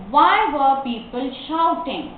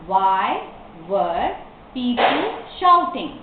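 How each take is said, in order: First: Slow, connected question; model reading. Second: Slow question with clear gaps between words. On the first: Teacher asks why people were shouting, slow reading. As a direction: read it as one careful sentence. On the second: Teacher repeats the question for learners, word by word. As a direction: separate "Why", "were", then the rest. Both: Shown as a demonstration.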